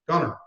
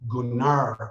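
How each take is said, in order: First: The final vowel is short and clipped. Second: The final vowel is drawn out long. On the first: "that's how they pronounced his name" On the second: "drag the A out on the, on the end of it there"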